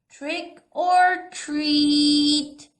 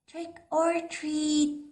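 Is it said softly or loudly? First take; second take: loudly; softly. First: It is said a little louder. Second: It is said very softly.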